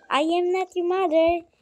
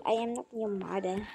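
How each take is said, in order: First: Sassy. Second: Said in the usual way. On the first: Shown as a demonstration. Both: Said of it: "English bigla ang auntie nyo".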